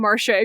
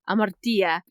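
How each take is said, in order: First: The word is pronounced the English way. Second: The word is pronounced the Greek way. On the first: "that is only the way you say that word in English" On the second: "if you are speaking Greek, you say Amartia"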